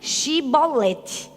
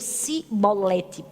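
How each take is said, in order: First: The word begins with a 'sh' sound. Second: The word begins with an 's' sound. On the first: The speaker calls it right. "diga Shibolete" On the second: The speaker calls it wrong. "não conseguiam dizer o chi"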